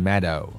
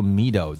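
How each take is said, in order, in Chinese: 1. 第一个元音是短音 e。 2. 第一个元音是长音 ee。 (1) "读成meadow 啊" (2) "注意这个E-A 不读E 啊，不读meadow"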